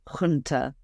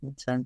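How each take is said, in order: First: The word begins with a rough throaty sound. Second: The word begins with a plain j sound.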